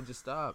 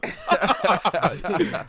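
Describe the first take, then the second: First: Said in the usual way. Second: Laughing loudly through it. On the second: Real, not acted. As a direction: crack up while saying it.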